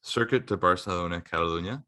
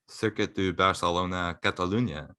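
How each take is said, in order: First: It is said in a Canadian accent. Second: It is said in a French-Spanish accent.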